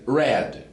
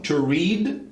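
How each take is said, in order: First: The vowel is short, like in 'red'. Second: The vowel is long, like in 'reed'. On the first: It is the past participle. "a pronúncia de passado e particípio são iguais" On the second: It is the present tense. "a de presente é diferente"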